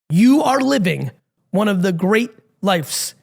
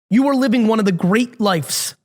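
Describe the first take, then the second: First: It is spoken very slowly and deliberately. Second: It is spoken at a normal, quicker pace.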